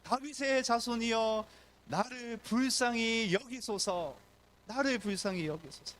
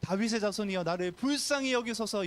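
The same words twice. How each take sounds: First: Crying out. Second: Loud cry. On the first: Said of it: "외칩니다". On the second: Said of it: "큰 소리로". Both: Acted.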